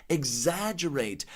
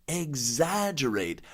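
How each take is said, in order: No difference in how they are said.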